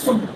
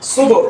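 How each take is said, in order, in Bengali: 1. শেষের b eco ছাড়াই সপাট থেমে যায়। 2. শেষের b একটু ইকো নিয়ে ফিরে আসে। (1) "সুব না হয়" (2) "হবে সুব"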